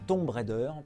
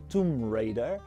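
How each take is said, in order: First: Tomb has an o vowel, French style. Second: Tomb has an oo vowel and silent b. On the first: The speaker calls it wrong. "surtout pas" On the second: The speaker calls it right. "le O se prononce OU et le B est muet"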